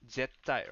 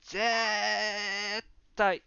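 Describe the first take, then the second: First: The word is said at normal length. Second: The word is drawn out for emphasis.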